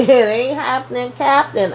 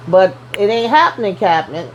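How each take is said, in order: First: "It ain't happening, Captain" said again through a laugh, rising higher on "Captain"; laughing repeat. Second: Said in the usual way. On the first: Shown as a demonstration. Repeating his brush-off to the viewer with a laugh, higher at the end. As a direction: chuckle the line back, pitch climbing on "Captain".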